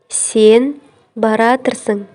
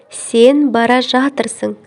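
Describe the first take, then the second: First: The verb is merged into one shortened word. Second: The verb is said as two full words.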